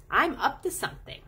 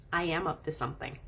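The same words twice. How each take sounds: First: "up to something" lifted high, playful; playful stress. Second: Said in the usual way. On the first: Real, not acted. Admitting to the viewer she really is up to something, playfully. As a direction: sing out "up to something" higher, playfully. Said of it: "'Cause it's true". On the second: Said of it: "what I usually tell them is".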